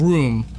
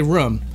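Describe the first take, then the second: First: Said in the usual way. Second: "room" with the short vowel of "book"; Boston-style "room". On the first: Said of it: "instead of room". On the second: Shown as a demonstration. Streamer showing his own local habit, short-vowel "room". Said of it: "I'll say room instead of room".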